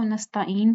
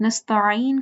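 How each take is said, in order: First: Second "نستعین" as nastaeen, no ain; common mispronunciation. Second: First "نستعین" as nasta'een, ain from throat; correct ain. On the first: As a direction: glide plainly from a to ee in "نستعین". ("نستعین" عین کے بغیر) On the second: ("نستعین" حلق والے عین سے) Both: Shown as a demonstration. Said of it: "نستعین کو نستعین پڑھتے ہیں".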